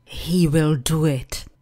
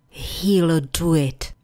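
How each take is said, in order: First: Will is said as a full separate word. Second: Will is reduced to an l sound.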